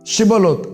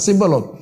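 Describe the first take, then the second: First: The word begins with an sh sound. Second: The word begins with an s sound. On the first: The speaker belongs to the people. "ಅವರಿಗೆ ಶಾ ಎಂಬ ಉಚ್ಚಾರ" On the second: The speaker is not from that place. "ಅವರು ಶಾವನ್ನು ಸಾ ಸಿಬ್ಬಲೋತ್ ಅಂತ ಹೇಳ್ತಿದ್ರು"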